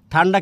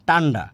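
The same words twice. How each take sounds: First: Said in the usual way. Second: টান্ডা with ট in place of ঠ; aspiration dropped. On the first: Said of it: "কি, কি বলে?". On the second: Retold or imitated. Teacher repeating Netrokona form, টান্ডা with unaspirated t. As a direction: say টান্ডা with no puff of air. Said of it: "ঠান্ডা কি, কি বলে?".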